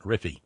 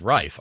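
First: The name is said as two syllables. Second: The name is said as one syllable. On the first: The speaker calls it wrong. "not Riffy" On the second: The speaker calls it right. "Pronunciation for Vern Rife is Rife"

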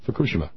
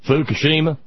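First: The name is said with a Japanese pronunciation. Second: The name is said with an American English pronunciation. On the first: The speaker calls it right. "NHK Japanese says it correctly" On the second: The speaker calls it wrong. "the incorrect pronunciation we hear from every other commentator"

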